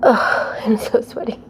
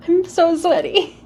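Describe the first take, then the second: First: Breathless, whispered, after a workout; out of breath. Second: Laughing whisper, out of breath; breathy laugh. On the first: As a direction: gasp it out, winded. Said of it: "Are you as out of breath as me?". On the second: Laughing after sweaty flow. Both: Real, not acted.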